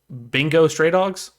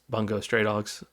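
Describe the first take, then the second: First: The first word is said as 'Bingo'. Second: The first word is said as 'Bungo'. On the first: Someone else said it this way. The speaker calls it wrong. "as my buddy put it" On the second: This is the real title. The speaker calls it right. "It's Bungo Stray Dogs"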